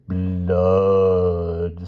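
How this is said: It is said slowly in a deep growl.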